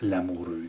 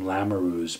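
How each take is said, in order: First: The name is said with a French pronunciation. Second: The name is said with an English pronunciation. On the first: This is how the name is meant to be pronounced. "but it's" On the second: The family changed the name to suit English speakers. "they've anglicized the name. They don't even pronounce it as a French name. They've changed it completely to"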